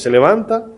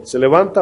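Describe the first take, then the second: First: ¿Se levanta? asked high, jumping up on levanta; ¿Se levanta? with a high leaping question tune; high rhetorical question. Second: Said in the usual way. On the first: Shown as a demonstration. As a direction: pitch ¿Se levanta? well up as a sharp challenge. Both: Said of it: "Y es una batalla cada vez".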